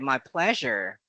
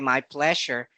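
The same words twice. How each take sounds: First: The middle consonant is a buzzing zh sound. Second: The middle consonant is a plain s sound. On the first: "they say my pleasure. Zh" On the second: "Although it's letter S, you don't simply say"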